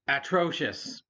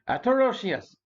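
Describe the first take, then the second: First: The word is said in ordinary English pronunciation. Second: The word is said in a foreign-style pronunciation. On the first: It is the everyday way of saying the word. The speaker calls it wrong. "not how atrocious. It just kind of sounds bad" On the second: It copies the show's way of saying the name. The speaker calls it right. "I'm saying it how Jeed's show pronounced it"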